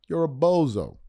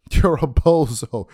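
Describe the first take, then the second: First: Said in the usual way. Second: Slow, louder, laughing through the insult. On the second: Real, not acted. Host laughing at Gilbert, slow and louder. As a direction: chuckle as you say it.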